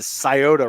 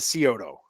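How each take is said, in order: First: It uses the pronunciation Ohio locals use. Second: It uses the pronunciation outsiders to Ohio use. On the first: The speaker calls it right. "it's the Scioto River" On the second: The speaker calls it wrong. "not the Scioto"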